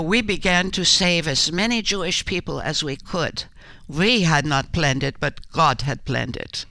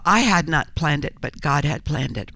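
First: Slightly set-apart quoting voice, a hint of Corrie's Dutch lilt. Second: Said in the usual way. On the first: Actress quoting Corrie to the interviewer in a light Corrie voice. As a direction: lightly voice Corrie's words as a solemn quote. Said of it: "I quote Corrie when she said". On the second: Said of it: "what I do portraying her".

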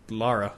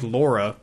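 First: LARA as an accented take on Laura; Scottish-style Lara; accented pronunciation. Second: Said in the usual way. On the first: Shown as a demonstration. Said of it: "it's the accented way of pronouncing Laura". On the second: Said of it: "It's like Laura, but".

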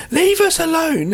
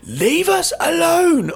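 First: High, raised-voice mock plea; teacher's telling-off. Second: Drawn-out, high and loud mock scolding; teacher's telling-off. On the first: Girl turns around on the stairs to Michael, teacher-like high call. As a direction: imitate a teacher calling out, pitched right up. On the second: Girl repeats it to Michael on the stairs, slow loud teacher-like scolding. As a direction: stretch it out slowly like a teacher, pitched way up. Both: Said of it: "Almost like a teacher".

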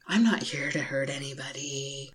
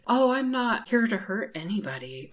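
First: Softer, lower mock innocent line; understated mimicry of the scammer; quieter fake-innocent imitation. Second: Mock sweet, innocent tone; imitating her fake voice. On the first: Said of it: "Except in an Australian accent". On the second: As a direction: mimic a fake-innocent scammer. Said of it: "that's how she was talking".

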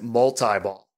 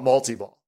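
First: "multi-ball" with a long I; "multi-ball" with "tie" as second syllable. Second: "multi-ball" with an ee in the middle; "multi-ball" with "tea" as second syllable; mul-tee-ball. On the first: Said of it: "one game that calls it multi-ball". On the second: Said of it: "Almost all the games I can think of call it multi-ball". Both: Shown as a demonstration.

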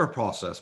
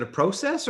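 First: Process with an open AH, PRAH-sess; American pronunciation. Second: Process with a long O, PROH-sess; mimicked British pronunciation. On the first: Shown as a demonstration. American host quizzing English guest, American open-vowel process. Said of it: "not process". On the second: American host poking fun at English guest, mimicked long-O process. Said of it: "I do say process".

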